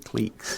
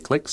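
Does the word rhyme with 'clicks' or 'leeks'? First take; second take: leeks; clicks. First: The vowel is long, like in 'leek'. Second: The vowel is short, like in 'click'. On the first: "If you want to be Canadian like me, you can say cliques" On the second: "If you want to say clicks, you go ahead and say clicks"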